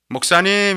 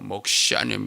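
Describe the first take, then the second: First: The word is said at a bright, higher pitch. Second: The word is said at a lowered, darker pitch. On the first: The caller brings welcome news. The speaker calls it right. "이렇게 부르는 사람은 반가운 사람이에요" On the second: Something worrying has happened. The speaker calls it wrong. "한 옥탑을 낮춰가지고"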